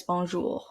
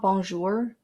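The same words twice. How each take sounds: First: "bonjour" ending in a soft back-of-throat French R; French pronunciation. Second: "bonjour" with a hard English R at the end; English-accented pronunciation. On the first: Vlogger correcting the English version for viewers, throaty French "bonjour". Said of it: "R sound in the back of their throats". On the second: Vlogger showing viewers how not to say it, English-R "bonjour". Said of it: "it's not bonjour". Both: Shown as a demonstration.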